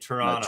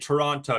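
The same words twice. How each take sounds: First: The second t sound is dropped. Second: Both t sounds in the word are pronounced. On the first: The speaker calls it right. "You say" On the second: The speaker calls it wrong. "don't say Toronto"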